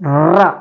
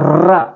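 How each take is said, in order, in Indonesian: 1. Vokalnya terdengar seperti 'a' yang tipis. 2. Vokalnya terdengar seperti 'a' yang tipis.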